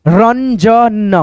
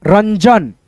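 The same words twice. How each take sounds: First: Ranjan very slowly split as रन, ज, न; drawn-out teaching version of Ranjan; syllable-by-syllable reading. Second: Said in the usual way. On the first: Shown as a demonstration. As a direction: stretch every sound of Ranjan. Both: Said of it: "इस बिंदी को हम लोग न पढ़ते हैं".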